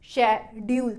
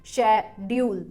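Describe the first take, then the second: Both takes have the same delivery.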